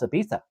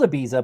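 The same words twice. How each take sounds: First: It is said with its local pronunciation. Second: It is said the way it is spelled. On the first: "but it's pronounced Ibiza" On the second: "it's spelled Ibiza"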